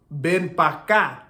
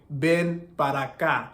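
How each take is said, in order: First: Ven pa' acá with para cut to pa'; casual Dominican ven pa' acá; Dominican pronunciation. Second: Said in the usual way. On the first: Shown as a demonstration. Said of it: "or why they say". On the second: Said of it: "instead of saying".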